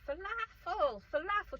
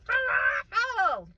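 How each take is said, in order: First: High, loud garbled mom voice; mom's mock mumble. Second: Very high, drawn-out yell; mock scream. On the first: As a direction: put on an off-screen mom, very high-pitched. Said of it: "the mom's sort of mumbling". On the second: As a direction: scream it slowly, hammed-up. Retold escalating shouting match with mom.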